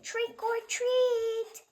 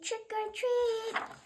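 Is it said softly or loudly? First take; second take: loudly; softly. First: It is said a little louder. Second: It is said very softly.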